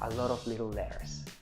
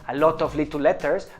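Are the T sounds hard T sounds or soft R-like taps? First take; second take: soft tap; hard T. First: The T sounds are said as quick R-like taps. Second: The T sounds are said as clear hard Ts. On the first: The speaker calls it right. "the T's can be converted into an R sound" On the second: The speaker calls it wrong. "it doesn't sound"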